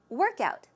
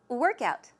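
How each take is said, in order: First: The stress falls on the first part. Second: The stress falls on the first part.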